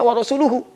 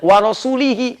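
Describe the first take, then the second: First: The last word ends with the vowels u-hu. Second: The last word ends with the vowels i-hi. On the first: The Messenger also disowns the idolaters. The speaker calls it right. "Harusnya wa rasuluhu" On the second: The Messenger is wrongly grouped with the idolaters. The speaker calls it wrong.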